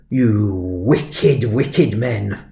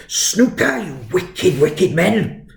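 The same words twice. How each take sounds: First: Mildly scolding, badly faked Welsh headmaster; attempted Welsh accent. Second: High-pitched, scandalised mock-Welsh headmaster; hammed-up Welsh outrage, pitch leaping; attempted Welsh accent. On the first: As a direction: imitate a disapproving Welsh head, held back. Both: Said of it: "can't do a Welsh accent".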